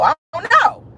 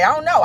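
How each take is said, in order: First: "I don't know" yelled high and loud; shouted I don't know. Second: Said in the usual way. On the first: Shown as a demonstration. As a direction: throw the second "know" up into a shout.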